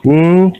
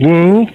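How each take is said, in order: The two takes are said the same way.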